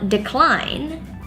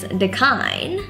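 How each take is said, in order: First: The L sound is clearly pronounced. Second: The L sound is left out. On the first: The speaker calls it right. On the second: The speaker calls it wrong.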